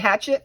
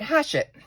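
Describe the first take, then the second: First: The middle consonant is a sharp 'ch' sound. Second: The middle consonant is a soft 'sh' sound. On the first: This is the way the speaker insists on saying it. "So if I say hatchet, that's it" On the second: This is the correction someone else offered. "Americans, we would say it"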